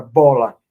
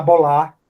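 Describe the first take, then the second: First: Said in the usual way. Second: Bolar said as bo-LA, stressed on the final syllable; a learner's misplaced bo-LA stress in bolar; stress on last syllable. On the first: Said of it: "Onde é que tá a sílaba tônica em bola?". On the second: Shown as a demonstration. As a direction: misread bola as bolar, hitting the LA. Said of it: "Ele pode falar bolar".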